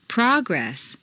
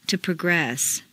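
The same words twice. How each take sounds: First: PROgress, stressed on the first syllable. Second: ProGRESS, stressed on the second syllable. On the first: Teacher models noun "Progress", first-syllable stress. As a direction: hit PRO in "Progress". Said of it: "first syllable for nouns". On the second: Teacher models verb "progress", second-syllable stress. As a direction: hit GRESS in "progress". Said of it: "to the second syllable". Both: Shown as a demonstration.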